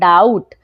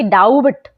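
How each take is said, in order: First: The word is said with no b sound. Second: The word is said with a b sound. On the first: The speaker calls it right. "बी हो जाएगा silent" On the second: The speaker calls it wrong. "ना कि"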